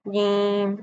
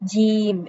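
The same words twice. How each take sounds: First: The j sound is spoken through the nose. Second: The j sound is mixed with a ch sound. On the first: "नाक में भी नहीं पढ़ना, जीम ऐसे भी नहीं पढ़ना" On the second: "इसमें चे की मिलावट हो जाएगी जो कि गलत है"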